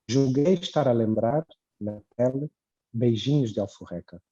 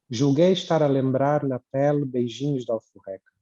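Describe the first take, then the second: First: It has short pauses around "na pele". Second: It flows without pauses around "na pele". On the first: "Outra é" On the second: "sem as vírgulas"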